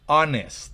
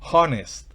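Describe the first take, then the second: First: The word starts with a vowel, h silent. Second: The word starts with a pronounced h sound. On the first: The speaker calls it right. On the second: The speaker calls it wrong.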